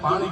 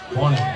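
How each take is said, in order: First: The first vowel is an open 'aa' sound. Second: The first vowel is a rounded 'o' sound. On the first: This is the standard Gujarati form. "આપણે એને પાણી કે" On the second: This is the North Gujarat dialect form. "અહીંયા શું કે પોણી"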